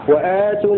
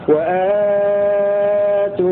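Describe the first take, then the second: First: The vowel after the hamza is held short. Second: The vowel after the hamza is held medium length. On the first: "ويتفق معه حمزة على قصر البدن" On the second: "ثم توسط البدن لورش"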